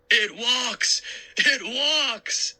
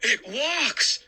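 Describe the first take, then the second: First: Hammed-up high mock fright; mocking repeat. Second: Startled shout. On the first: Uncle mockingly repeats his fake scream to the kids. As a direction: laugh at his own fake terror. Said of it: "he repeated". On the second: Acted. Uncle shouts in fright at the mummy. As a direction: shout it in shock. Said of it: "he shouted".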